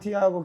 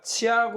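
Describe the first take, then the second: First: The name begins with a plain t sound. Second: The name begins with a ch sound. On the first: "티아고가 아니라" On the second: "브라질식 발음으로는"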